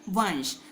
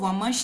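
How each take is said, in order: First: The nasal is pronounced as an n sound. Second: The nasal is pronounced as a clear m sound. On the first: The speaker calls it right. "न की आवाज आई, यहाँ नाक से आवाज आई" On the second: The speaker calls it wrong. "इसको वमश नहीं पढ़ेंगे"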